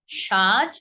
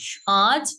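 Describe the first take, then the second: First: Said in the usual way. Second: "সাজ" with its vowel sent through the nose; nasalised vowel. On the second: Shown as a demonstration. Teacher showing the chandrabindu sound, nasalised. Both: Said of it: "এই গেল চন্দ্রবিন্দুর উচ্চারণগুলো".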